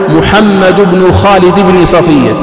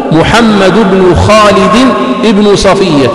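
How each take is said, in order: First: بن before صفية said "bini", genitive, the error; wrong reading. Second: ابن before صفية said "ibnu", nominative; slow "ibnu safiya" with the alif sounded; correct reading. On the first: Teacher demonstrating the common mistake. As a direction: read "bini safiya" as the mistaken form. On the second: Teacher modelling the mother's name, slow and careful. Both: Shown as a demonstration. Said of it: "فهذا خطأ في النطق".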